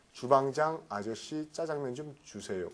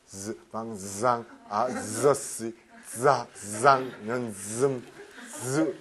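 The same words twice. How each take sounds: First: Said in the usual way. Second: 주방장 아저씨 짜장면 with buzzed z for each ㅈ, slow and low; every J as Z. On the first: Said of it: "어떻게 하냐면". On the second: Shown as a demonstration. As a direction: drill it slowly, buzzing z in 주방장, 아저씨, 짜장면. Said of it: "다 그거를 이 Z 발음을 해야 되는 겁니다". (주방장 아저씨 짜장면의 지읒을 전부 z로 천천히)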